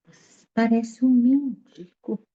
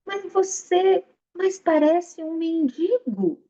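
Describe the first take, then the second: First: Slow, weighty retelling of the insult; emphasized remark. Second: Mocking. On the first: Shown as a demonstration. Teacher repeats the sage's insult to the audience, slow and weighty. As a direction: lean on each word for the listeners. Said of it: "Olha a atenção nessa colocação". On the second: Sage mocking the armed samurai.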